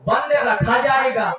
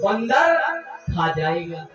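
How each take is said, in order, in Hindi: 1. शब्द का विराम ठीक 'band' के बाद आता है। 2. शब्द का विराम ठीक 'bandar' के बाद आता है।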